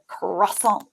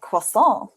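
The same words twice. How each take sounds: First: Croissant with hard KR and sounded T; mock "Croissant" as KRAH-sont, American style; imitated American pronunciation. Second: Croissant with silent final T; French pronunciation. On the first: Guest teasing host's pronunciation, imitated American. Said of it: "then you just go". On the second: Retold or imitated. Guest imitating the French for host, French pronunciation. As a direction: say "Croissant" like the French, ending on an open nasal vowel. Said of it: "wouldn't the French be like".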